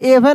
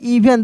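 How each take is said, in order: First: The word begins with an 'eh' vowel. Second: The word begins with an 'ee' vowel. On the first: The speaker calls it wrong. "अब एवन नहीं" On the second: The speaker calls it right. "नहीं इवन"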